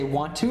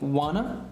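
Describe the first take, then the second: First: Both words are said fully and separately. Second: The words are reduced to one blended word. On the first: "he doesn't say want to" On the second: "he says wanna"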